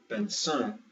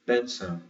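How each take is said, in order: First: BENÇÃO wrongly as ben-ÇÃO; last-syllable stress. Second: BENÇÃO as BEN-ção, stress on the E; first-syllable stress. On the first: Teacher showing the losing version, stress on the end. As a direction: say "benção" leaning on the final diphthong. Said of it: "So instead of". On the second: Teacher showing the accent wins, first-syllable stress. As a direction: say "benção" with the weight up front on BEN. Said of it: "the accent always wins". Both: Shown as a demonstration.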